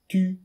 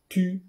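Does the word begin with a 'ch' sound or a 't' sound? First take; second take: t; t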